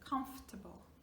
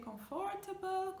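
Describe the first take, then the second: First: The middle syllable is dropped. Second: The middle syllable is fully pronounced. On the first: The speaker calls it right. "here we do not pronounce the F O" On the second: The speaker calls it wrong. "please do not say"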